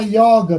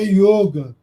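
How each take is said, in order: First: The o vowel is said wide open. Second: The o vowel is said closed. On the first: The word is treated as a Portuguese word. "bem aberto" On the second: The word is treated as a Sanskrit term. "se eu escrever com Y, é sânscrito, aí é yoga"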